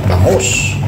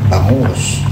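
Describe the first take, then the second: Both takes have the same delivery.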